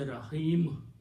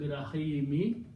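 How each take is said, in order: First: The word ends abruptly on the m. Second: The word ends with a short i vowel. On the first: The speaker calls it right. "you say rahim. Not more, no more me" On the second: The speaker calls it wrong. "instead of pronouncing rahimi"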